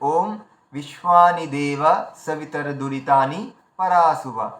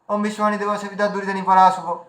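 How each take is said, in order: First: Each word is clearly separated from the next. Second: The words run together without breaks between them. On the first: The speaker calls it right. "এখানে আপনারা পরিষ্কার বুঝতে পারছেন যে এতগুলো শব্দ আলাদা আলাদা" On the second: The speaker calls it wrong. "এইভাবে যদি আমি বলে দিই, তো আপনারা কি করে বুঝবেন যে এর মাঝখানে শব্দগুলো ভাগ হয়েছে কোথায়?"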